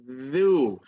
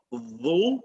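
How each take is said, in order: First: Dhu with the tongue tip between the teeth; correct dhu. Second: Dhu with the tongue pushed out too far; wrong dhu. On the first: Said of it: "it's dhu". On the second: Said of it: "It's not dhu". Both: Shown as a demonstration.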